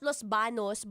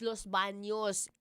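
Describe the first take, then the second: First: It is said with a plain n sound. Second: It is said with an ny sound. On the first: The speaker calls it wrong. "It's not Los Banos" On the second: The speaker calls it right. "but it's Los Baños. Enye"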